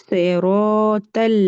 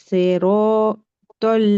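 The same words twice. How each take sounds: The two takes are said the same way.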